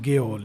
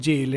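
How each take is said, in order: First: The word starts with a hard G sound. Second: The word starts with a J sound. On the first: "some people pronounce it as गेओल" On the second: "is also pronounced as जेल"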